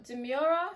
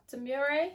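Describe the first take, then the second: First: "Demura" ending in an unstressed "-ra", questioning rise; tentative "Demura", de-MYOOR-uh, rising; unsure pronunciation. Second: "Demure" with an "-ay" ending, questioning rise; tentative "Demure", last sound like "ray"; unsure pronunciation. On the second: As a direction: try "Demure" as de-MYOOR-ay, pitched up as a question. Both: Shown as a demonstration. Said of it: "not sure how you pronounce".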